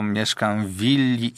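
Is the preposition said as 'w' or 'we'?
w. It has the standard form 'w' before willi.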